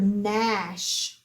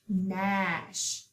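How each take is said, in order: First: Said in the usual way. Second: Softer "gnash" said as nash; soft repeat. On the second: Shown as a demonstration. Teacher repeats "gnash" softly for class, G silent. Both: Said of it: "we do not hear the G".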